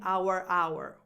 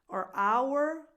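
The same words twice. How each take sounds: First: The first our is said fully and strongly. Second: The first our is reduced to an R sound. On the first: The speaker calls it wrong. "I'm not saying our hour. That would be too much" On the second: The speaker calls it right. "the first one is just our"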